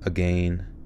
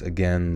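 First: It is said with a Canadian pronunciation. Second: It is said with a non-Canadian pronunciation.

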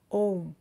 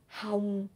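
First: It begins with a vowel and ends in m. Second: It begins with an h sound and ends in ng. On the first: "or ôm"

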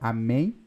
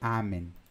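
First: The stress is on the last syllable. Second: The stress is on the first syllable. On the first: "igual em português" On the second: "com o acento no A"

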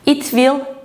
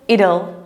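First: Will is said as a full separate word. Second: Will is reduced and joined onto it.

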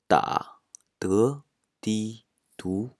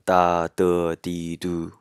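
First: The syllables move through several different tones. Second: Every syllable keeps the same high level tone. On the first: "いろんなイントネーションを" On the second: "全部一声だと"

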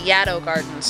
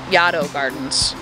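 First: Its first vowel sounds like the a in shadow. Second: Its first vowel differs from the a in shadow. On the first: The speaker calls it right. "it's actually supposed to rhyme with shadow" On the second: The speaker calls it wrong. "and not"

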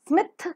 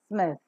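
First: The final th is a hard stop. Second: The final th is a soft fricative. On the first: The speaker calls it wrong. "So it is not smith" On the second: The speaker calls it right. "but it is smith"

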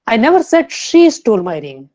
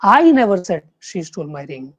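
First: The stress falls on the word she. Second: The stress falls on the word I. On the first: Someone else stole the ring. "Fourth" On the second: Someone else said it. "अगर आप first जो word है उसको आप stress देंगे"

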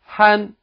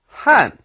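First: The pitch stays high and level throughout. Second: The pitch falls sharply from high to low. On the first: "first tone" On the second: "fourth tone"

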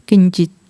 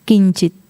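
No difference in how they are said.

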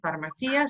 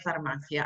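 First: The stress falls on the syllable ci. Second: The stress falls on the syllable ma. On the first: The speaker calls it wrong. "no es farmacia" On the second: The speaker calls it right. "sino que farmacia"

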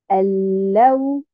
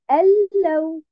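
First: The stress is on the second syllable. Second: The stress is on the first syllable. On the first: The speaker calls it right. "je mets bien sûr un nabr sur harakat al-lam" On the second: The speaker calls it wrong. "Et non pas al-law. Je ne la garde pas uniquement sur harakat al-hamza"

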